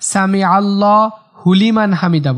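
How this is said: The 'hu' is joined onto the following 'liman'. The speaker calls it wrong. "হুলিমান কিন্তু হবে না"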